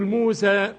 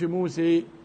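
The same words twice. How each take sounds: First: The final long vowel is fully open. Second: The final long vowel leans slightly toward e. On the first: The speaker calls it right. "مالكش فيها الا الفتح، تقول موسى" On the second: The speaker calls it wrong. "ما تقولش موسى"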